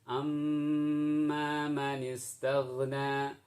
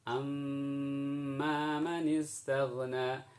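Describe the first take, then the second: Both takes have the same delivery.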